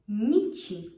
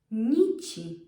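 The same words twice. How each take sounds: The two takes are said the same way.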